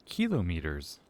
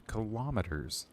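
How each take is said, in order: First: Kilometers as KEE-lo-meters, stress up front; game's pronunciation of kilometers. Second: Kilometers as kuh-LOM-eters, stress on LOM; contrasting pronunciation of kilometers. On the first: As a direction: hit the first syllable of kilometers, KEE-lo. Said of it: "Did she say kilometers". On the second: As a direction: punch the second syllable of kilometers, kuh-LOM. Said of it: "as opposed to kilometers". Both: Shown as a demonstration.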